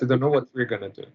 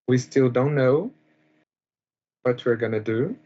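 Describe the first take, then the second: First: The end of the sentence is said quickly. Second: The end of the sentence is said slowly.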